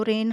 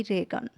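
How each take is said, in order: First: "रेन" as one syllable, no g sound; silent g in reign. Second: "रेगन" with the g sounded; mispronounced reign with g. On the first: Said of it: "सही pronunciation ज़रूरी है". ("रेन" में g का उच्चारण नहीं) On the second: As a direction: say "रेगन" in two syllables, voicing the g. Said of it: "न कि रेगन". ("रेगन" में ग का गलत उच्चारण) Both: Shown as a demonstration.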